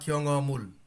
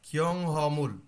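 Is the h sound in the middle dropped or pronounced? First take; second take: dropped; pronounced. First: The middle h sound is dropped entirely. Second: The middle h sound is clearly pronounced. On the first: "খিয়ং অ বলতে পারেন" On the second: "খিয়ং হ বলতে পারেন"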